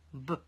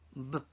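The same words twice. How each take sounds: No difference in how they are said.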